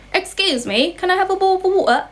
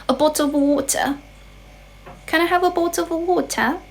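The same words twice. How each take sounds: First: Quick, higher-pitched British request, t's swallowed; British accent. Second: Higher-pitched British accent, rounded vowels, sounded t's. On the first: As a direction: ask it like a Brit with glottal stops. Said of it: "that was British accent". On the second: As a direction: ask in British English with careful t's. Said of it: "其实它有很多种口音". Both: Shown as a demonstration.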